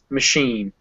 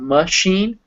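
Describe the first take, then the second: First: The first vowel is a weak, reduced schwa. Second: The first vowel is said fully, not reduced. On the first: The speaker calls it right. "really underpronounce that schwa" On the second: The speaker calls it wrong. "it's not machine"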